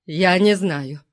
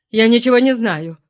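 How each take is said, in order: First: Said in the usual way. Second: Выше, на грани истерики; сорвись в паническое отрицание; истерично. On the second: A narrator's reading. (истеричным, испуганным голосом) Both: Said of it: "Голос Промеро стал истерическим".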